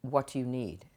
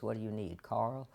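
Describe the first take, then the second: First: Said in the usual way. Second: Put-on a light, soft British accent; a hint of Andy's British accent, quietly; imitating British accent. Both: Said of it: "actually he talked like this".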